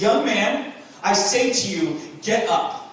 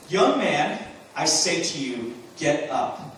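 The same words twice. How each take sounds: First: Loud, high command. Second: Said in the usual way. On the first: Acted. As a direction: order him up with full authority. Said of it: "He says it with authority". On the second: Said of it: "No, he says".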